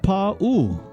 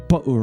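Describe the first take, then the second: First: The vowels are stretched long. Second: The vowels are said short. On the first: The speaker calls it right. "actually it's pronounced Pa'u. You stretch the Pa and you stretch the U" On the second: The speaker calls it wrong. "So many of us say"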